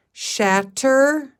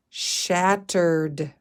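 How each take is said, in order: First: Shattered called out higher and louder after sounding it out; blended word. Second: Said in the usual way. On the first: Shown as a demonstration. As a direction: blend Shattered together with a bright push. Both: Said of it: "Shat. Er. D".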